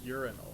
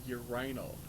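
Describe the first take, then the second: First: The word is said with a non-British pronunciation. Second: The word is said with a British pronunciation. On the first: The speaker calls it right. "instead of a urinal" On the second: The speaker calls it wrong. "call it a urinal"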